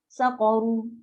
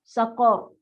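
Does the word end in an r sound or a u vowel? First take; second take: u vowel; r sound. First: The word ends with a u vowel. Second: The word ends on a trilled r. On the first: The reading continues without stopping. "itu pada teks" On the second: The reader stops at this word. "dia akan bunyi saqar"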